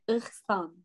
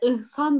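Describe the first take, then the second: First: The name is said with a throaty, growled sound. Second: The name is said plainly, without a throaty sound. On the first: The speaker calls it right. "böyle hırlatarak, ... Bir gırtlak geliyor şimdi içine" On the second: The speaker calls it wrong. "Bir de İhsan da değil"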